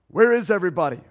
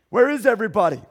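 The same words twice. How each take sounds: The two takes are said the same way.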